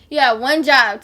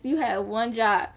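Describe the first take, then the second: First: "job" hit hard and loud on the repeat; louder angry repeat. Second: Said in the usual way. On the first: Retold or imitated. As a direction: repeat it louder, hammering "job", furious at mom.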